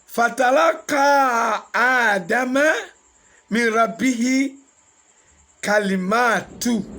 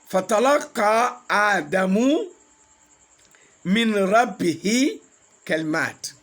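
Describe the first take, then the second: First: The name ends in an 'a' vowel. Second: The name ends in a 'u' vowel. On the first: The words from his Lord received Adam. "Adama was Adamu, but here is Adama" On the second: Adam received the words from his Lord. "Adamu with Dhamma is the file"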